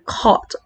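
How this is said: The R sound after the vowel is dropped. "hindi mo masyadong naririnig yung R"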